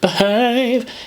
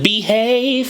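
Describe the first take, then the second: First: The first vowel is a reduced schwa. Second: The first vowel is a full vowel. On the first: The speaker calls it right. "like be schwa have" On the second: The speaker calls it wrong. "It wasn't behave, no"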